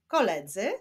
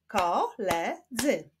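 First: Said in the usual way. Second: "koledzy" slowly split as ko, le, dzy; three slow beats on "koledzy"; syllable by syllable. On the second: Shown as a demonstration. Teacher clapping syllables for pupils, "koledzy" split in three. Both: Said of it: "Wyklaszczmy sylaby".

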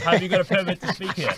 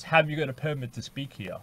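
First: Quoted question, higher and louder for emphasis; incredulous repeat. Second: Said in the usual way. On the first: Retold or imitated. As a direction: repeat the guard's question in mock disbelief. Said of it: "Literally, he says". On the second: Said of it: "security guard comes up to her and says".

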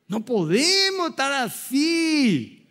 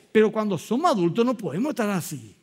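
First: "No podemos estar así" repeated higher and slow, each word weighed; slow emphatic repeat. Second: Said in the usual way. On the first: Shown as a demonstration. Pastor repeating his warning to the congregation, slow and emphatic. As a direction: hammer home "No podemos estar así" slowly, pitch lifted.

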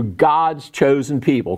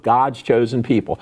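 First: Slow, sarcastic air quotes around God's chosen people; ironic quote. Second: Said in the usual way. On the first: Shown as a demonstration. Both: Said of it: "quote unquote".

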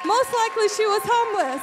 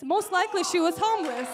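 First: Higher, much louder preaching cry; emphatic shout. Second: Firm, slightly raised preaching voice; emphatic aside. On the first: Preacher repeats the point to the congregation, emphatic shout. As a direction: drive the line home at full voice. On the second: Preacher comments on the convert's homeless ministry, emphatic aside. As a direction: make the point to the room. Punchline to congregation, first take. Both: Real, not acted.

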